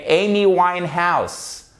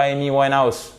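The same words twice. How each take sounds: First: Amy Winehouse with long EY and sounded H; careful English Amy Winehouse; prononciation anglaise. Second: Amy Winehouse quick and French, H dropped; accent français. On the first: ([name] à l'anglaise, H soufflé) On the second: ([name] à la française, sans H) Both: Shown as a demonstration. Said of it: "et pas [name]".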